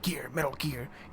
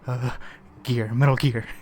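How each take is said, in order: First: It is said confidently. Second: It is said hesitantly.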